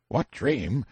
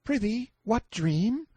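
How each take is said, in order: First: Said in the usual way. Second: Put-on very high, slow boy's voice; light-hearted high-pitched questioning; teasing boy Clarence. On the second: A narrator's reading. Boy makes fun of the prisoner's plight, teasing.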